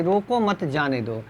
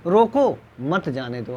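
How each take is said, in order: First: "रोको मत" as one phrase, then "जाने दो"; group मत with रोको, no break after रोको; मत joined to रोको. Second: "रोको" set apart, then "मत जाने दो" together; pause after रोको. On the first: Teacher explains the letting-go meaning, मत joined to रोको. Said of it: "जाने की भाव प्रकट". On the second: Teacher explains the not-letting-go meaning, pause after रोको. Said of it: "ना जाने का भाव". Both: Shown as a demonstration.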